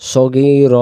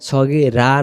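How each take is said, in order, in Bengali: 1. শব্দটি একটি খালি 'r' ধ্বনিতে শেষ হয়। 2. শব্দের শেষে একটি যোগ করা 'a' স্বরধ্বনি আছে। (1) "শুধু র বলে দম সারবো" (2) "রা না"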